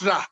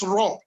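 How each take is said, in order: First: The syllable has a bright, fronted vowel. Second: The syllable has a deep, backed vowel. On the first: The speaker calls it wrong. "not ra" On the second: The speaker calls it right. "it is raw"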